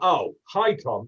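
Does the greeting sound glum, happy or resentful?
resentful. The greeting sounds cold and resentful.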